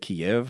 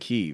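First: It is said the older way, as Kiev. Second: It is said the newer way, as Kyiv. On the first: This is the long-familiar habitual form. The speaker calls it wrong. "I've always said Kiev my entire life" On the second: This is the form people now use. The speaker calls it right. "now everybody's saying Kyiv"

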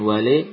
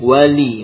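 First: The final vowel is a reduced, e-like sound. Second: The final vowel is a full, clear i. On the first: The speaker calls it wrong. "bukan wale" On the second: The speaker calls it right. "Disempurnakan kasrohnya. Wali bukan wale"

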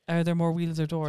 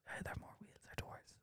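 First: It is spoken aloud in a normal voice. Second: It is whispered quietly.

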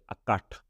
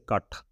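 First: The word begins with an 'a' vowel. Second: The word begins without the 'a' vowel.

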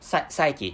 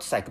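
First: The word is said with two syllables. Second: The word is said with one syllable. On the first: The speaker calls it right. "the correct pronunciation is psyche" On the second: The speaker calls it wrong. "not psych"

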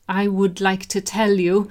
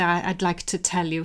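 First: It is said with the full form "I would". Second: It is said with the contraction "I'd". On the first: The speaker calls it wrong. "when they start" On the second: The speaker calls it right. "so much more natural"

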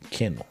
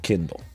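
First: The word starts with 'ken', like kennel. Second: The word starts with 'kin', like kindle. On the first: The speaker calls it right. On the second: The speaker calls it wrong. "Not Kindle"

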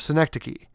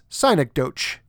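First: The word is pronounced the standard way. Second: The word is pronounced as it is spelled. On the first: The speaker calls it right. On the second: The speaker calls it wrong.

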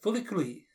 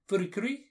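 First: The name is said with an L sound. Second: The name is said with an R sound.

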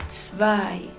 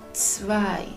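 Both takes have the same delivery.

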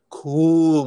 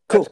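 First: The vowel is long and drawn out. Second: The vowel is short and clipped. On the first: It sounds evocative and expressive. The speaker calls it right. "I like the more drawn out pronunciation of the 60s" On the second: It just means that's okay. The speaker calls it wrong. "is a clipped version of today"

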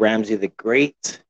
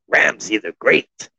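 First: It is said in his normal voice. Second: It is said in a new, put-on voice.

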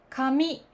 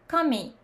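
First: The pitch starts low and rises. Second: The pitch starts high and falls. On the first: This is the standard Tokyo pronunciation. "これはスタンダード、低いから高い。" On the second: This is the Osaka pronunciation. "大阪では高いから低いになります。"

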